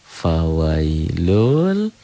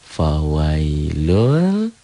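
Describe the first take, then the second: The two takes are said the same way.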